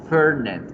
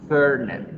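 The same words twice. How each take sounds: Both takes have the same delivery.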